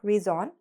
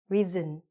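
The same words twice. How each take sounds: First: The last syllable has a full 'on' vowel. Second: The last syllable has a weak, reduced vowel. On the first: The speaker calls it wrong. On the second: The speaker calls it right.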